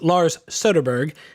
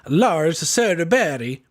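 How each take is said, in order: First: The name is said with an American accent. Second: The name is said with a Swedish accent. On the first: "the way that I would say it" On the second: "as best a Swedish pronunciation as I can"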